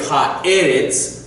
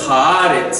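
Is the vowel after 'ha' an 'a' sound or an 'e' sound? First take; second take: e sound; a sound. First: The vowel after ha is an e sound. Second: The vowel after ha is an a sound. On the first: The speaker calls it wrong. "instead of saying ha'eretz" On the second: The speaker calls it right. "it becomes ha'aretz, and it's almost like one word. So the e changes to an a"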